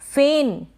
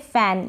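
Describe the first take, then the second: First: The vowel is a mid e sound. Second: The vowel is an open a sound. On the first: The speaker calls it wrong. "फेन नहीं पढ़ेंगे" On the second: The speaker calls it right. "इसको पढ़ेंगे फैन"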